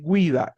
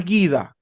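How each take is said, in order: First: "guida" said as GWEE-da; correct, U sounded. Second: "guida" said as GHEE-da, no w; wrong, silent U. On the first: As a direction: put a w glide after the g in "guida". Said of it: "es guida". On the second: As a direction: drop the u from "guida". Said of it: "No es guida". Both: Shown as a demonstration.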